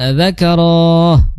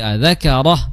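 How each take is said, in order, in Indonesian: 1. Vokalnya dipanjangkan, panjang. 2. Vokalnya tetap pendek. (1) "bukan adzakarah" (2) "tapi adzakarah pendek ya"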